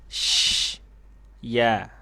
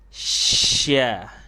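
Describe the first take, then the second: First: A long hiss, a break, then the syllable. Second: The hiss runs straight into the syllable. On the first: "desisnya dipanjangin lalu diputus" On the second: "desis dan huruf ya-nya dipepet"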